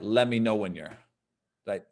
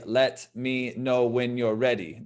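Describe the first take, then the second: First: The words are blended together into one stream. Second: Each word is said separately and clearly. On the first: This is how native speakers say it. "Those words kind of get smushed together a lot" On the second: This is how it is read from a book. "when we study from a book, we're, we're saying"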